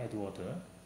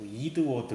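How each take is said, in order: First: The first vowel sounds like 'eh'. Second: The first vowel sounds like 'ee'. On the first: "에드워드라고 있잖아요" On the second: "얘네들은 뭐 이드워드 뭐 이렇게 말을 하고"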